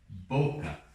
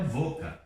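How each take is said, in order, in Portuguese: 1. A primeira consoante soa como b. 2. A primeira consoante soa como v. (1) "é boca" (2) "o espanhol correto não é boca"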